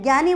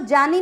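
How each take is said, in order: First: The word begins with a 'gy' sound. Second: The word begins with a plain 'j' sound. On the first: The speaker calls it right. "ज्ञानी बोलते हैं" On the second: The speaker calls it wrong. "ज्ञानी को जानी नहीं बोलते"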